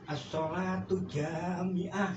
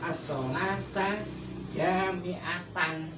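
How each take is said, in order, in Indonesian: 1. Berakhir '-ah', dengan kata pertama berakhir 'u'. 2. Berakhir '-atan', dengan kata pertama berakhir 'a'. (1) "Tidak boleh itu, Salah" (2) "Harusnya gitu"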